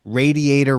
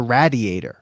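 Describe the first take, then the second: First: Radiator with a flat ay, RAY-dee-ay-ter; Long Island pronunciation. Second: Radiator with a short a, RAD-ee-ay-ter; standard pronunciation. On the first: Showing how he used to say radiator as a kid, RAY-dee-ay-ter. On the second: Correcting his childhood radiator to RAD-ee-ay-ter. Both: Shown as a demonstration. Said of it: "that's why I used to pronounce".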